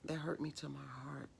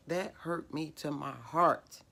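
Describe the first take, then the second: First: Soft, sinking "That hurt me to my heart" falling away on "hurt"; quiet pain. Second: Slow, stressed "that hurt me to my heart" leaning on "that"; emphatic. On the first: Woman telling viewers of her grief, said softly. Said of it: "Y'all, that hurt me to my heart". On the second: Woman insisting to her viewers, slow and emphatic. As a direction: press each word to the viewers. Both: Real, not acted.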